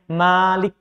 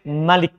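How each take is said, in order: First: The vowel after the m is long. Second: The vowel after the m is short. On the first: "Bisa dibaca panjang mimnya" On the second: "Bisa dibaca pendek"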